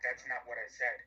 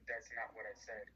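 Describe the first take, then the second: First: It is said in a hostile, aggressive tone. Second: It is said in a calm, even tone. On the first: The speaker is attacking the listener. The speaker calls it wrong. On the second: The speaker is just correcting a misunderstanding. The speaker calls it right.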